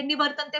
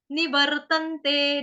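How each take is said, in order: First: Said in the usual way. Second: Slow निवर्तन्ते with a long final te; drawn-out निवर्तन्ते; pronunciation demo. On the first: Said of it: "पहले भी पढ़ा आपने". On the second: Shown as a demonstration. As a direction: chant निवर्तन्ते syllable by syllable. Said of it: "अब हम इसका देखेंगे उच्चारण".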